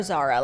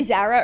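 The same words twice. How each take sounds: First: Zara with the other vowel; alternative pronunciation of Zara. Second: Zara said one of two ways; first pronunciation of Zara. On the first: Offering co-host a choice, other way of saying Zara. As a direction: say Zara in the second variant. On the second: Offering co-host a choice, first way of saying Zara. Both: Shown as a demonstration. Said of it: "You say Zara or Zara?".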